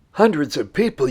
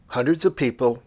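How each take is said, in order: First: Hundreds of people raised as a mildly doubting question, Hundreds lifted higher and louder; mock surprised echo. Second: Said in the usual way. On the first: Host voicing a skeptical viewer's question, mock surprised. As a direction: play an imagined viewer echoing in light disbelief. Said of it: "you say?".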